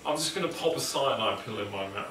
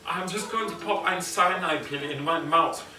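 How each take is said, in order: First: It is said in the speaker's normal accent. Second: It is said in a put-on German accent.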